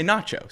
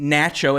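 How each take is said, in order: First: Nacho with an open "ah", as "notch-o"; adopted pronunciation. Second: First nacho with a flat "a", as "natch-o"; former pronunciation. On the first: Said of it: "now I say nacho". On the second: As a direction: say nacho to rhyme its start with "match". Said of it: "I say n". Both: Shown as a demonstration.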